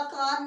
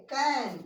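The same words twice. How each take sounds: First: कान with a long "aa" vowel; wrong long-AA reading. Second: कैन with an open "ae" vowel; teacher's model कैन with "ae", not "aa"; correct AE vowel. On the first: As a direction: misread can as कान, with "aa". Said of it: "कान नहीं पढ़ेंगे". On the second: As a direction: say कैन as English can, "kaen". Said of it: "कैन पढ़ेंगे". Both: Shown as a demonstration.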